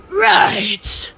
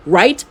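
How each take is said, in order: First: "Right" high and drawn out; exaggerated echo. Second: Said in the usual way. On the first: Shown as a demonstration. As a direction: stretch "Right" in a put-on high voice.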